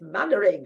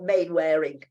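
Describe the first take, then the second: First: The name begins with the sound 'man'. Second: The name begins with the sound 'main'. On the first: The speaker calls it right. "It's Mannering" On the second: The speaker calls it wrong. "it's not Mainwaring"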